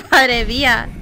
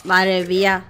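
First: Madre mía through a laugh, slowed; laughing disbelief. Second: Said in the usual way. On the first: Real, not acted.

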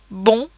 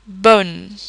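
First: Bon with nasal O, no N; round nasal vowel. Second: Bonne with less rounded O, clear N; not nasal. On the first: Teacher contrasting sounds, bon very round and nasal. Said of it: "a very round and nasal sound". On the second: Teacher contrasting sounds, bonne without nasal vowel. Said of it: "which is not nasal". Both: Shown as a demonstration.

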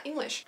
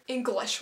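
First: Said in the usual way. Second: "English" said oddly, falling; a slightly off "English", dropping in pitch; flubbed "English", pitch falling. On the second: Real, not acted. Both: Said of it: "Why am I saying like that?".

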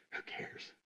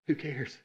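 First: Breathy whisper, barely audible; a hushed shrug of a question; whispered aside. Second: Said in the usual way. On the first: Real, not acted. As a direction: toss it off in a whisper.

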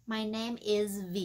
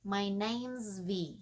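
First: Slow "name is" as two words; full-form example. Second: Slow "name's" merged into one word; contracted example. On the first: Teacher modelling an introduction, slow full form. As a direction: say "is" separately and clearly in "My name is V". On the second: Teacher modelling an introduction, slow contracted form. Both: Shown as a demonstration. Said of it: "ví dụ như mình nói nè".

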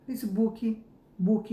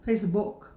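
First: Facebook said as fesibuki, book as buki, with a trailing i; Brazilian accent. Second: Facebook with an extra i, fes-i-buki; Brazilian accent. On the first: Teacher demonstrating the Brazilian Facebook. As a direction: stretch book into buki with an added vowel. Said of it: "e o certo, o certo". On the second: Teacher showing Brazilians saying Facebook with an added i. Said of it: "a gente tem um sotaque de falar". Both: Shown as a demonstration.

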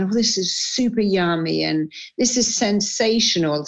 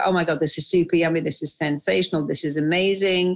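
First: Said in the usual way. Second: Fast, gushing praise for the food; gushing delight. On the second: Shown as a demonstration. Showing the host how she relishes food, fast gushing. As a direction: rave about each bite, quickly. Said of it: "I don't kind of just eat and I go".

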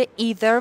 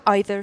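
First: EITHER opening with "ee"; American pronunciation. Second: EITHER opening with "eye"; British pronunciation. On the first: Teacher hinting at the earlier part, "either" as EE-ther. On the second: Teacher hinting at the earlier part, "either" as EYE-ther. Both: Shown as a demonstration. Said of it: "در مورد either و either".

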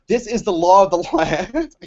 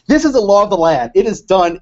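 First: Quoting with a laugh breaking in; slow declaration collapsing into laughter; cracking up. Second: Louder, emphatic quoted proclamation; hammered-out imitation of a president's pronouncement; mock presidential declaration. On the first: Retold or imitated. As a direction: try to declare it, lose it on the last words. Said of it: "I can't even say without laughing". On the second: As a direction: declare it firmly, without laughing this time. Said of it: "He said, he said".

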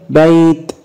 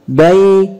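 First: بيت as bayt; sukun ending. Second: بيت as bay-tun, higher; voweled ending. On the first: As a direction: stop بيت on a bare t. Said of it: "سكن". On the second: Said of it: "هننطقها ايضا مرتين بالتشكيل". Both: Shown as a demonstration.

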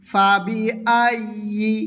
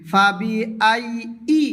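First: ফাবি আইয়ি with a clear ইয়া sound from mid-tongue; ফাবি আইয়ি said correctly, the ইয়া clearly sounded; correct pronunciation. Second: ফাবি আই ই said with a glottal stop and no ইয়া sound; ফাবি আই ই mispronounced with a hamza in place of the ইয়া; wrong pronunciation. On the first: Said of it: "ইয়ার জাগাতে ইয়া উচ্চারণ করিতে হবে।". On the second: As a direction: swallow the ইয়া in ফাবি আই ই, the way not to say it. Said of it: "এরকম যাতে না হয়।". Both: Shown as a demonstration.

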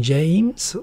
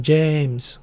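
First: "James" stretched with a gliding ei vowel. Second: "James" with one long pure e, no glide. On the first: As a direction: draw out "James" as jeimz, with a clear glide. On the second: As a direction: draw out "James" as jehmz. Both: Shown as a demonstration. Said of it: "You have to distinguish in Japanese".

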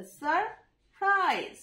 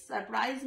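First: সারপ্রাইজ slow and high, সার, pause, প্রাইজ; syllable by syllable. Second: Said in the usual way. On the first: Shown as a demonstration. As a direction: break সারপ্রাইজ into two long halves. (সারপ্রাইজ থেমে থেমে দুই ভাগে) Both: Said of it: "দুটো syllable".

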